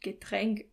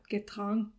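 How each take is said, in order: First: The second vowel is an umlauted 'ä' sound. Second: The second vowel is a plain 'a' sound. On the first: The speaker calls it right. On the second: The speaker calls it wrong.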